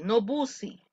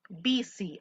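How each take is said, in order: First: "busy" said as written, "boo-see"; the mistaken spelling-sound "busy", not "bizzy"; wrong pronunciation. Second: "busy" said "bizzy", short i; right pronunciation. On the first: Teacher to class, showing the wrong way first. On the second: Teacher to class, showing the right way. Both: Shown as a demonstration.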